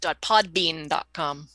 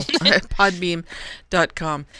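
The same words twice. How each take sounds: First: Podbean said slowly, each part clear; clear correction. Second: Podbean said louder with a laugh; repeating back. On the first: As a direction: stress podbean, slow correction. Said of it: "correcting the website name". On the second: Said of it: "repeating the correction". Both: Shown as a demonstration.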